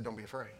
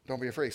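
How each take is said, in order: First: Much softer, gentle and low; soft reassurance. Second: Said in the usual way. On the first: Retold or imitated. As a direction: say it softly to calm a scared father. Jesus quoted, first take soft.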